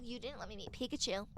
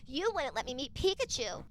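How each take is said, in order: First: Softer mock grumble, "Pikachu" falling away; retold complaint. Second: Fuller voice than a grumble, falling at "Pikachu"; retold accusation. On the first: Sister retelling her long argument with brother, soft retold complaint. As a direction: grumble the old grievance under your breath. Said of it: "I kept saying". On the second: Sister repeating her argument to brother, "You wouldn't" pressed accusingly. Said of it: "used that in an argument".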